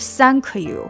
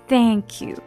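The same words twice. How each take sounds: First: The first sound is not a tongue-between-teeth th. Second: The first sound is a tongue-between-teeth th. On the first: The speaker calls it wrong. "而且你是不是thank you" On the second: The speaker calls it right. "是thank you。这个呢是说thank 的时候它th 的那个音是你的舌头放在两个门牙的中间的"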